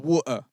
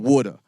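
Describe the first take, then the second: First: The t is replaced by a glottal stop. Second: The t is said in an American way. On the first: "a glottal stop is when you're saying water" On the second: "Americans be like water"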